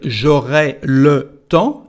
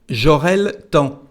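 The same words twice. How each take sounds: First: The vowel in le is fully pronounced. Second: The vowel in le is dropped. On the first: "en vez de decir" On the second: "en francés decimos"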